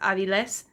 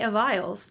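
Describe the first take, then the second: First: The name is said with a Spanish pronunciation. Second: The name is said with a distorted English pronunciation. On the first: It is the name's true form. The speaker calls it right. "but it's actually, it's Aviles" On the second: Others get the name wrong. The speaker calls it wrong. "when people who speak English try to say my name, they call me Aviles"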